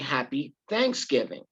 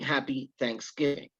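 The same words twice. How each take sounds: First: The stress falls on thanks. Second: The stress falls on giving.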